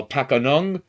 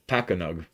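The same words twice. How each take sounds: First: Pakanung said with an extra n, pa-ka-NUNG; wrong name. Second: Pakanug said pa-ka-nug, hard g ending; corrected name. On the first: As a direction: misreads Pakanung with a nasal ng. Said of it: "I thought it was Pakanug". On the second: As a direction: fixes it to Pakanug, no n sound. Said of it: "Oh, excuse me". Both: Real, not acted.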